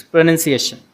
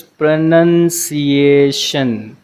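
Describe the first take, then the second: First: "pronunciation" at normal brisk speed; fast setting. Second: Very slow, syllables stretched right out; slow playback. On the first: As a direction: say it in one quick, connected go. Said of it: "if you want Google to pronounce it fast". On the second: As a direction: draw out every syllable like slowed-down audio. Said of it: "to make it slow for you". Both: Shown as a demonstration.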